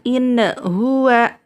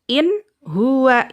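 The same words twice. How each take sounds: First: The n sound is bounced with a little echo. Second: The n sound is cut off before the next word. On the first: "nunnya tidak boleh dipantulkan" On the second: "Atau diputuskan"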